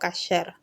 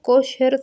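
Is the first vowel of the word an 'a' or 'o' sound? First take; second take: a sound; o sound. First: The first vowel is an a sound. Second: The first vowel is an o sound. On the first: This is the Hebrew way of saying it. "en hebreo pronunciado como kasher" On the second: This is the Spanish way of saying it. "se pronuncia así en español"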